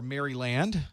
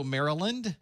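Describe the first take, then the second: First: MARYLAND split as "Mary-Land"; outsider's pronunciation. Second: MARYLAND run together as "MARE-uh-lund"; local pronunciation. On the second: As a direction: say MARYLAND with a weak, swallowed middle. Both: Shown as a demonstration. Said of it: "depending on where you are from".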